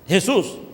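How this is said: The name is said with a Spanish pronunciation. "no suena Jesús"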